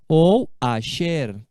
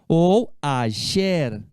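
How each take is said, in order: The two takes are said the same way.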